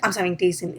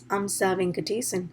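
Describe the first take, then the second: First: The name is rushed out quickly. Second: The name is said slowly and clearly. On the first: The speaker calls it wrong. "I should not go run and be like" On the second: The speaker calls it right. "Instead, I have to say my name is"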